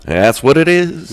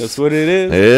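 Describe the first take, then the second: First: High, slow, exaggerated English accent; anglophone accent. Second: Loud, slow mimicked English accent; imitated anglophone accent. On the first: Shown as a demonstration. Guest confirming his anglophone accent, high drawn-out showy English. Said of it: "c'est un accent anglophone". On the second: Host mimicking the guest's anglophone accent, loud and drawn out.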